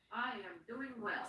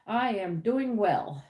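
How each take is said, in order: First: Barely audible repeat; almost silent. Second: Said in the usual way. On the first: Shown as a demonstration. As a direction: say it again under your breath.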